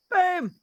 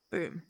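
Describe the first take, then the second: First: High, loud boom. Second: Said in the usual way. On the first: Real, not acted. Streamer shouts boom after the plain one. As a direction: punch the boom out.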